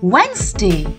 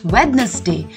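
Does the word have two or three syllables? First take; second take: two; three. First: The word is said with two syllables. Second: The word is said with three syllables. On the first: The speaker calls it right. "It is Wednesday" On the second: The speaker calls it wrong. "the correct pronunciation for this day of the week is not Wednesday"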